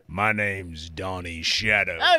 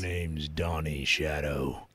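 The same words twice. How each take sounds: First: It is spoken loudly into the mic. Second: It is spoken quietly into the mic. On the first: The speaker calls it right. "Okay, there you go" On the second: The speaker calls it wrong. "You're so quiet"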